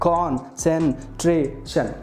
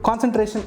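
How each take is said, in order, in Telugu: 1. పదం అక్షరాల మధ్య విరామాలతో విడగొట్టబడుతుంది. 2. పదం విరామం లేకుండా సాఫీగా చదవబడుతుంది.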